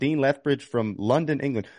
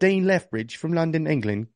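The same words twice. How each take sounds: First: It is said in a plain American accent. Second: It is said in a put-on British accent. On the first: The speaker calls it wrong. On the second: The speaker calls it right.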